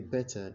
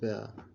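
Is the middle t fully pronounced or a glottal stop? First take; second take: full t; glottal stop. First: The middle t is fully pronounced. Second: The middle t is a glottal stop. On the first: "So so to say better" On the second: "he said better"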